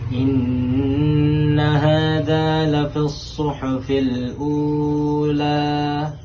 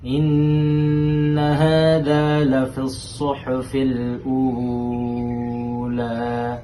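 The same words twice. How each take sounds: First: The vowel in 'ula' is held four beats. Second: The vowel in 'ula' is held six beats. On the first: "Itu empat harokat" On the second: "itu enam harokat"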